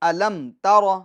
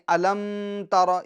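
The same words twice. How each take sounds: First: The m is said plainly without nasal hum. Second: The m is held with a nasal hum. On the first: The speaker calls it right. "इजहार शफवी, यानी गुन्ना नहीं करेंगे" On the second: The speaker calls it wrong. "ये गलत है"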